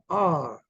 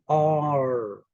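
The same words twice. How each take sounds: First: It is said British-style, without the R. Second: It is said with a strong American R.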